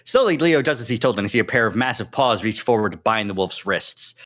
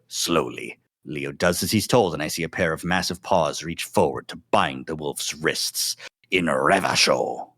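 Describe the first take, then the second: First: It is read at a quick, ordinary pace. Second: It is read slowly, like a drawn-out performance.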